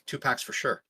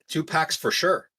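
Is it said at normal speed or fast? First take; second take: fast; normal. First: It is said quickly, running together. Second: It is said at a normal pace.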